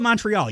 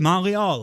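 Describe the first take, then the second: First: It is said the plain English way. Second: It is said the French way, without the T.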